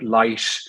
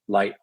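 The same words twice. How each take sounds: First: The final T is hissy and sibilant. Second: The final T is a glottal stop. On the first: "sometimes we have like a sibilant T" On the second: "we have to put a usually a glottal stop on that"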